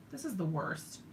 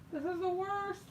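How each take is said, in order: First: Said in the usual way. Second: High, whiny groan of defeat; whiny complaint. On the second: Real, not acted. Giving up on finding the marker, high whiny groan. Frustrated, can't find marker.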